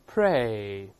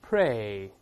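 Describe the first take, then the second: No difference in how they are said.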